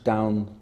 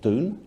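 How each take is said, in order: First: Said with an 'ow' vowel, modern Durham. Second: Said with an 'oo' vowel, traditional Durham.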